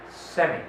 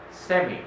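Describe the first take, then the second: The two takes are said the same way.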